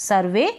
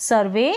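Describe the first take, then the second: The two takes are said the same way.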